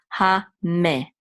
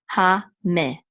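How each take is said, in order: No difference in how they are said.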